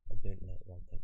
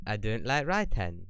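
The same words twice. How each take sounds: First: A light Scottish accent on 'I don't like writing'. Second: Said in the usual way. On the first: Shown as a demonstration. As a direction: try the line again in a mild Scottish accent. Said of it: "that's definitely Scottish". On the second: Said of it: "I don't know why that was Scottish".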